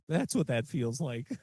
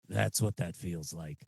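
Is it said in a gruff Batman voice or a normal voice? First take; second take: normal voice; Batman voice. First: It is said in a plain normal voice. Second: It is said in a gruff Batman voice.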